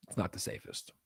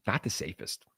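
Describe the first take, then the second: First: Whispered aside, "not" leaned on. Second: Said in the usual way. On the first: Shown as a demonstration. Streamer confiding to chat about Mexico, whispered aside. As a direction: drop to a secretive whisper.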